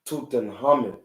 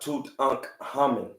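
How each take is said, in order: First: The 'kh' is said as a breathy sound. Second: The 'kh' is said as a hard K. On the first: The speaker calls it right. "the K and the H is pronounced with a breath" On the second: The speaker calls it wrong. "It's not"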